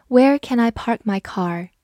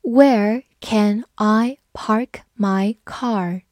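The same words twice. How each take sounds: First: Said in the usual way. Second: Very slow, spaced read-along. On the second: Shown as a demonstration. Teacher reads slowly for students to repeat. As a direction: stretch every word for the learners. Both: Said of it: "我们慢读一遍".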